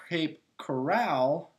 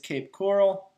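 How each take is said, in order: First: The second word sounds like 'corral'. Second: The second word sounds like 'coral'. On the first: The speaker calls it wrong. "I pronounced it Cape Coral, and it's not really the OK Corral" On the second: The speaker calls it right. "so it is Cape Coral"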